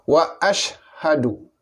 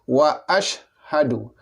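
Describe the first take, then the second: Both takes have the same delivery.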